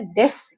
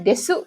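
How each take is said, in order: First: The final u vowel is dropped. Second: The final u vowel is pronounced. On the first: "tapi dibacanya des" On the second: "Ini ditulisnya desu ya"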